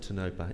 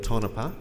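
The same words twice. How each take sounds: First: The name is said the outsider way. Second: The name is said the local way.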